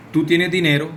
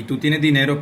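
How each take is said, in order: First: "tienes" stressed, said as a flat statement; statement tune. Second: "dinero" stressed so "tú tienes dinero" sounds like a question; question tune. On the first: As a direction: say "Tú tienes dinero" as a plain statement leaning on "tienes". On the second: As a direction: lean on "dinero" to make it ask. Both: Shown as a demonstration. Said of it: "pueden ser preguntas y afirmaciones teniendo en cuenta mi tono".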